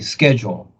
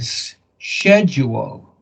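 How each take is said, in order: First: The word is pronounced the American way. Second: The word is pronounced the British way. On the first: "Here we say schedule" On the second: "in England and Europe, they say schedule"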